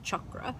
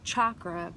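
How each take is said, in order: First: The first vowel is a 'u' sound. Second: The first vowel is an open 'a' sound. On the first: This follows the Sanskrit pronunciation. "the Sanskrit pronunciation is chakra, like a U" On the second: This follows the English spelling. "it's spelled chakra"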